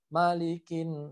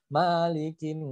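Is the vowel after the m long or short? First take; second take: short; long. First: The vowel after the m is kept short. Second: The vowel after the m is drawn out long. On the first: The speaker calls it right. "padahal mim di situ adalah pendek" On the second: The speaker calls it wrong. "karena kebiasaan di Al-Fatihah Maliki Yaumid"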